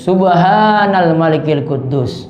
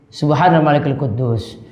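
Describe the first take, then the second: First: The phrase is said noticeably louder. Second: The phrase is said at normal volume.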